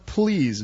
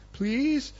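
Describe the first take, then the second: First: PLEASE set apart with a falling tone; stressed plea. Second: PLEASE very high with a rising, wheedling end; hammed-up meek PLEASE, lifting at the end; suddenly pleading. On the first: Acted. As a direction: land firmly on PLEASE, letting it fall. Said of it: "notice the word please". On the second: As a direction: beg sweetly on PLEASE, pitched way up. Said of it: "his tone has changed".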